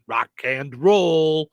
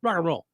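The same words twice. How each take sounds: First: The word 'and' is fully and separately pronounced. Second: The word 'and' is reduced to a quick 'n'. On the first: "You're not saying rock and roll" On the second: "saying rock and roll"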